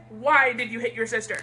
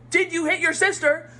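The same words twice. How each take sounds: First: Lower, even-handed parental question; calm question. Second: Louder, higher mock accusation; accusing parent. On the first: Acted. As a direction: ask without accusing. The recommended calmer take. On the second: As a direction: demand it like a cross parent.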